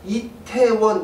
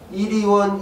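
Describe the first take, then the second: First: The middle syllable is said as 'tae'. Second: The middle syllable is said as 'ri'. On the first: The speaker calls it right. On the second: The speaker calls it wrong.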